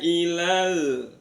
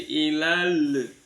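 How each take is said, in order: First: The final l is held closed without release. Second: The final l is released with an audible vowel. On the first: The speaker calls it right. "lamnya jangan dilepas" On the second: The speaker calls it wrong. "Kalau dilepas jadi ilal"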